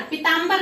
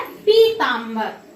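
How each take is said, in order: First: "पीतांबर" opening on short pi; quick "पीतांबर", clipping the first i short; wrong short vowel. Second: "पीतांबर" with long pee; slow "पीतांबर", stretch the first ee; corrected long vowel. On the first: Teacher shows the mistake, "पीतांबर" with short pi. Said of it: "नहीं". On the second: Teacher corrects students, "पीतांबर" with drawn-out pee. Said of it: "क्या होता है". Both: Shown as a demonstration.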